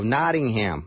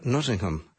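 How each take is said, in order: First: It is said in an American way. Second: It is said in a British way.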